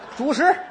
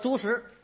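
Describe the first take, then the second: First: The first syllable has a low dipping tone. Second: The first syllable has a high level tone. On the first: It means staple food. The speaker calls it right. "主" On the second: It means pig feed. The speaker calls it wrong. "你不像人话"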